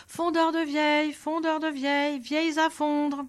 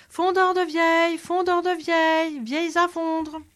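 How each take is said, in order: First: Higher crier's singsong call; street crier's call. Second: Much higher, louder, chest-out bellow; loud proud cry. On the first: Old Nicolas calling out to the town square, mild crier's call. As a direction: hawk it like an old street peddler. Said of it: "se mit à crier sur la place". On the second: The swaggering soldier hawking in a back street, booming cry. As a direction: puff up the chest and bellow it down the alley. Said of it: "bombant le torse, s'enfonça dans une ruelle et se mit à crier". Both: Acted.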